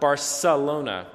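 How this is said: The c is said with an s sound. "most people would pronounce the C in Barcelona"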